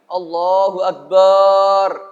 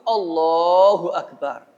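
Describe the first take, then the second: First: The vowel after b is drawn out long. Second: The vowel after b is short. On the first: The speaker calls it wrong. "dipanjangkan alifnya" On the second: The speaker calls it right. "lafaz takbiratul ihram itu Allahu Akbar"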